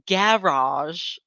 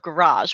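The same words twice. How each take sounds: First: It is pronounced the British way. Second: It is pronounced the American way. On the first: "the husband is British, and on the vlog yesterday, he said "garage"" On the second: "instead of "garage,""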